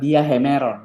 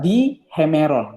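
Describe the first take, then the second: First: The final vowel of the first word is kept. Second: The final vowel of the first word is dropped. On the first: The speaker calls it wrong. "bukan dia hemeron" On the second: The speaker calls it right. "Jadinya apa? Di hemeron"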